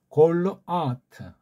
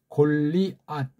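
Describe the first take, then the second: First: The name ends in a full 'teu' syllable. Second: The name ends in a clipped final 't'. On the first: The speaker calls it right. "그걸 따라서 발음하면 골르 아 아트" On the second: The speaker calls it wrong. "우리말은 골리앗, 골리앗 이렇게 쓰네. 앗. 시옷 받침으로 골리앗"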